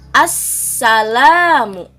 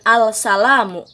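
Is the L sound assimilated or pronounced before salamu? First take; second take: assimilated; pronounced. First: The L is assimilated into a doubled S. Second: The L is pronounced clearly before the S. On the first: The speaker calls it right. "alif lamnya tidak terbaca dengan jelas" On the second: The speaker calls it wrong. "bukan al salamu"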